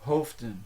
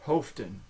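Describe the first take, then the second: First: The word ends with a clear n sound. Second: The same.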